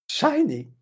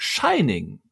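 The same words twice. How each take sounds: First: Dramatic high trailer announcer; horror trailer voice. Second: Horror trailer voice. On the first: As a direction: belt the title like a trailer. Mimicking trailer title. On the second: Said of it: "dieser klassische Trailersprecher in einem ähnlichen Tonfall". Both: Retold or imitated.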